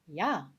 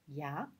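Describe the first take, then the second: First: It is said emphatically, with stronger intonation. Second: It is said plainly, without extra emphasis. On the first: "Avec la forme accentuée" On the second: "Avec la forme normale"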